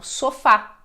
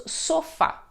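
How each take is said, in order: First: "sofá" stressed as so-FÁ; stress on last syllable. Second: "sofá" mis-stressed as SO-fa; stress on first syllable. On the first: Teacher showing what the accent does, "sofá" stressed on FÁ. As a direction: land firmly on the final FÁ of "sofá". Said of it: "e não sofá". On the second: Teacher showing the word without its accent, "sofá" stressed on SO. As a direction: hit SO in "sofá", let fa fall away. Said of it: "damos ênfase na segunda sílaba". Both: Shown as a demonstration.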